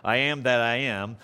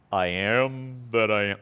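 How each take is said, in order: First: A hint of a booming movie God; lightly voiced grand divine proclamation; mild mock epic God voice; Ten Commandments voice. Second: Ten Commandments voice. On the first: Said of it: "that Ten Commandments kind of thing". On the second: Retold or imitated. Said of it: "You gotta say it with that kind of voice".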